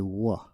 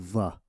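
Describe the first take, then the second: First: The syllable begins with a w sound. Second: The syllable begins with a v sound. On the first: The speaker calls it right. "You would say wa" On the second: The speaker calls it wrong. "So you wouldn't say va"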